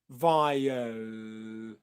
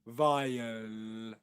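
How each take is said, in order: First: The final L is light, tongue forward. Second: The final L is light, tongue forward.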